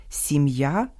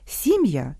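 First: Сім'я with stress on the last syllable, sim-YA. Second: Сім'я with stress on the first syllable, SIM-ya. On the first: Host shows homograph for family, last-syllable stress. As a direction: slowly rise onto the final я of Сім'я. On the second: Host shows homograph for seed, first-syllable stress. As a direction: hit the first vowel of Сім'я, then fall. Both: Shown as a demonstration. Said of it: "а читаються по-різному".

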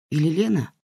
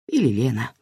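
First: «Лена» stressed with a falling question tune. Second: «Или» stressed, lower, settling statement; settled statement. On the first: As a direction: ask «Или Лена?» unsure, weight on «Лена». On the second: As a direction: state «Или Лена.» flatly, weight on «Или». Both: Shown as a demonstration.

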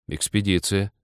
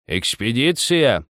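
First: ЭКСПЕДИЦИЯ said quickly in an ordinary pitch; hasty reply. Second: ЭКСПЕДИЦИЯ drawn out slowly, higher pitched; questioning old man. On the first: Nikita hurries to answer, ЭКСПЕДИЦИЯ brisk and plain. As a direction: confirm ЭКСПЕДИЦИЯ promptly, without drawing it out. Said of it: "поторопился сказать Никита". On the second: Old man questions Nikita, ЭКСПЕДИЦИЯ slow and high. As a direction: ask ЭКСПЕДИЦИЯ as a slow, raised demand. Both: A narrator's reading.

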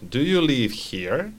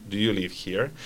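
First: Slower careful question, rising end; slow model repeat. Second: Said in the usual way. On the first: Shown as a demonstration. Teacher repeats student answer, slowly and clearly. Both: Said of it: "Very good".

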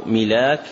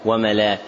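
First: "ملاك" said with an i after the mim, milak; kasra on the mim. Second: "وملاك" said with an a after the mim, wa-malak; fatha on the mim. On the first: Teacher giving students both vowelings of the word, kasra form "ملاك" as milak. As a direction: open "ملاك" with a short i, mi-laak. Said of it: "بكسر الميم". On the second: Teacher adding the alternative voweling for students, fatha form "وملاك" as wa-malak. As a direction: give "وملاك" a short a, ma-laak. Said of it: "وتفتح أيضًا فيقال". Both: Shown as a demonstration.

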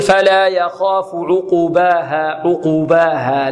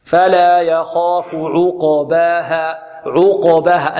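First: Slow chant with "عقباها" wrongly said as uqubaha; beginner's mistake demo, u vowel on the qaf of "عقباها"; damma on the qaf. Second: Slow chant of "عقباها" with qaf bounced, no u after it; echoed vowelless qaf. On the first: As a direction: add a short u after ق in "عقباها". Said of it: "فيضمها، فيقول". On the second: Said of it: "والقاف مقلقلة". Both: Shown as a demonstration.

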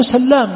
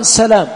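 First: سلام with a doubled L, sallām; سلام as sal-LAAM; doubled lam. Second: سلام with a single L, salām; سلام as sa-LAAM; light lam, mistaken reading. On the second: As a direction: say سلام without doubling the lam. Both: Shown as a demonstration. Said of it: "هو سلام بالتشديد".

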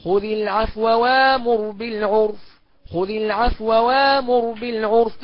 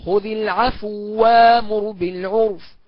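First: Very slow خذ العفو وامر بالعرف with a quick, barely voiced vowel on the waw before وامر; snatch the vowel lightly, don't merge it. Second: Slow recitation of خذ العفو وامر بالعرف with the waw fully merged; full merging. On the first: Teacher demonstrating the snatched-vowel reading to students. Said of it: "والاختلاس يبقى كده". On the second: Teacher demonstrating full assimilation to students. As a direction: chant it slowly, doubling the waw. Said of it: "الإدغام اهو". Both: Shown as a demonstration.

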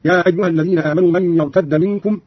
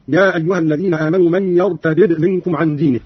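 First: "يرتد" as yartadda; one doubled d in "يرتد": yartadda; merged dal. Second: "يرتد" as yartadid; unmerged dal. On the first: Teacher giving examples of both forms, "يرتد" merged as yartadda. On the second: Teacher giving examples of both forms, "يرتد" unmerged as yartadid. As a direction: separate the two d sounds in "يرتد": yartadid. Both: Shown as a demonstration. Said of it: "والفتح والإدغام وردت بهما اللغة".

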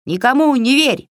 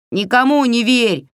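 First: High, sharp cry of a minion; high-pitched yelled warning; cried out. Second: High, sudden minion's cry; high, eager goblin parroting; blurted out. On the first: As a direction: shout it out high, like a little goblin. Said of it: "выкрикнула Егоша". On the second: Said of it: "выпалил Егоша". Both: A narrator's reading.

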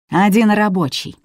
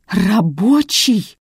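First: Said in the usual way. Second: Slow, raised, bitter echo. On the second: A narrator's reading. Son repeating his mother's answer, bitterly. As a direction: drag the word out in bitter disbelief. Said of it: "с горечью повторил Борис".

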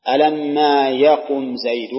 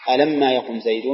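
First: Slow, deliberate example with weight on ما. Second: Said in the usual way. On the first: Shown as a demonstration. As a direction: lay out the example word by word and lean on ما. (نطق بطيء متأنٍ مع التركيز على ما) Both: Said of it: "تقول في ألم".

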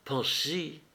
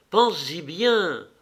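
First: Said in the usual way. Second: "Pense-y bien" drawn out slowly, weight on "bien"; slow insistent. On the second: A narrator's reading. Levin urging Kitty, slow stress on "bien". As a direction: lean hard on "bien", slowly.

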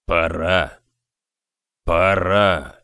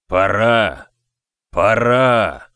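First: Low, eerie grave-like mutter; deep murmuring voice. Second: Loud booming voice from beyond; thundering otherworldly voice. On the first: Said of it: "Невероятно глубоким голосом он бормотал". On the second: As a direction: thunder it like a ghostly giant. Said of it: "прогремел он потусторонним голосом". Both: A narrator's reading.

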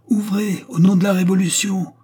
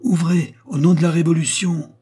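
First: Much higher, loud outside shout; shouted again, louder. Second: High, loud shout through a door; shouted order. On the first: The voice outside repeats its order, higher and fiercer. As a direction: hammer the order from beyond the door. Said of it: "répéta la voix du dehors". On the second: A voice outside shouts at the door, loud and high. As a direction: bellow the command from outside. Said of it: "une voix cria de l'extérieur". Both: A narrator's reading.

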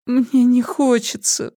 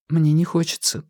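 First: High, slow whimper. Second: Said in the usual way. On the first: A narrator's reading. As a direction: whine it out pitifully. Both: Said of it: "проскулила она".

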